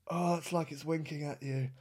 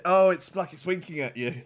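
First: Much softer, drawn back repeat; softer aghast echo. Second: Said in the usual way. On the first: Shown as a demonstration. Disgusted viewer repeating it to himself, much softer. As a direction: say it again under your breath. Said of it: "repeated softer".

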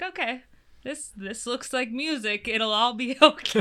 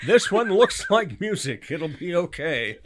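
First: Light laughing self-quote; laughing through an old thought; retold own thought. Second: Slow, high, laughing quote; laughing mock quote. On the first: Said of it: "and I was like". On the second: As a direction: quote her back slowly, laughing. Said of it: "we have a quote from Elise Kellogg".

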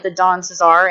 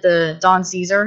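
First: Said in the usual way. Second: "Caesar" said as SEE-zer, like the Roman ruler; "Caesar" mispronounced with a stressed SEE and a weak zer; imitated mispronunciation. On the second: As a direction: mimic his mistake, "Caesar" as SEE-zer. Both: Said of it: "he called it the Don Caesar".

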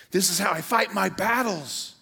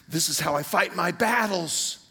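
First: "fight" punched, higher and louder; stress on fight. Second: "battles" carries the weight, louder, falling at the end; stress on battles. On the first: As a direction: hit the word "fight" hard. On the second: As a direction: land the line on "battles". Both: Real, not acted. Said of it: "repeated with new stress".

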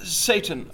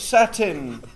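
First: "Satan" said as SAY-tn, like the devil's name; mispronounced Satan. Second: "satin" said SAT-in with a short a, like the fabric; corrected satin. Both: Acted. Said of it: "It's pronounced Satin".

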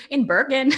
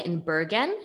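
First: Higher, louder Norwegian accent, amused. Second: Norwegian accent slipping out on Bergen; super Norwegian accent. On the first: Host laughing at her own slip, exaggerated Norwegian accent. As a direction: repeat Bergen in Norwegian accent through giggles. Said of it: "my Norwegian came out". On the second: Host telling her guest where she lives, Norwegian accent. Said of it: "that accent was super Norwegian". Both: Real, not acted.

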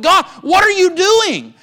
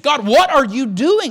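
First: Anguished cry to God. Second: Confused plea to God. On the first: Acted. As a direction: curse God in open anguish. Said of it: "cursed God and said". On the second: Retold or imitated. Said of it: "I'm gonna scratch my head and I'm going to be just a little confused".

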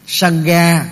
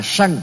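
First: "Sangha" as "sang-ga", final a sounded; full two-syllable reading. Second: "Sanh" as one syllable, final a dropped; Indian reading of Sangha. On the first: Teacher citing the term in full, "Sangha" as "sang-ga". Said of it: "thì người Ấn Độ đọc là Sanh". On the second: Teacher showing how Indians read Sangha, "Sanh" without final a. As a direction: say "Sanh" like "sang", no a. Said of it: "người Ấn Độ đọc là". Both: Shown as a demonstration.

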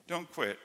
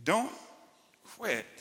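First: "Don't quit." said again, much softer and falling; softer repeat. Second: "don't" and "quit" split by a long pause; slow emphatic plea. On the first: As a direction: drop the volume and repeat "Don't quit." gently. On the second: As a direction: let a heavy pause hang between "don't" and "quit". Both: Real, not acted. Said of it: "tell some people today, don't quit".

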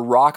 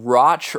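First: "Rock" ending in a hard k; alternative pronunciation. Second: "Roch" ending in a ch sound; tentative pronunciation. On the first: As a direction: say "Rock" like the word for a stone. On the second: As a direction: say "Roch" to rhyme with "notch". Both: Shown as a demonstration. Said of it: "I'm not sure how it's pronounced".

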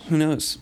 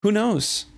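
First: Said in the usual way. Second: High, emphatic who knows. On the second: Real, not acted. Host answering a co-host's worry, emphatic. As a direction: throw up the question.

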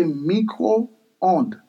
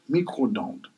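First: "micro-onde" as Creole 'mee-ko-ond', slowly; Creole pronunciation. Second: "micro-onde" said 'mee-kro-dond', softer; French pronunciation. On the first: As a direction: draw out "micro-onde", no d before 'ond'. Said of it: "So in Creole". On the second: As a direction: put a d before the last syllable of "micro-onde": dond. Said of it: "And in French". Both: Shown as a demonstration.

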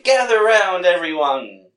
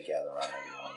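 First: Loud, high carnival barker call; loud street performer hustle. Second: Quiet mock quote. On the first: Retold or imitated. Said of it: "I just can't picture Albert saying". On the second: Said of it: "I don't ever wanna hear you say".

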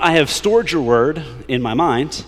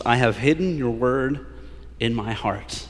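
First: Stored held long and slow, louder and higher; slow and emphatic on stored and mind; stress on stored. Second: Hidden held long, slow and drawn out; slow, weighty emphasis on hidden; stress on hidden and heart. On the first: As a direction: punch stored as the wrong version. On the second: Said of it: "Taking emphasis on this". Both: Shown as a demonstration.

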